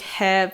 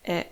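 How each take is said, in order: First: It is said with an h sound. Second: It is said without an h sound. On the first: This is how the character is learned on its own. "when you learn it, it's like he" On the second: This is how it is used in a sentence. "when it is in a sentence, you use it as e"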